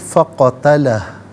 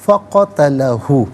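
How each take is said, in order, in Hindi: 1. शब्द का अंत व्यंजन पर होता है, स्वर छूट जाता है। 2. शब्द का अंत अंतिम स्वर u से होता है।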